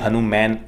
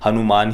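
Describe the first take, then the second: First: The last syllable has the vowel of English 'man'. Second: The last syllable has a long open 'aa' vowel. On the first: The speaker calls it wrong. "ये कोई हनुमैन इस प्रकार का कोई उच्चारण नहीं है" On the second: The speaker calls it right. "हनुमान ही इसका उच्चारण है"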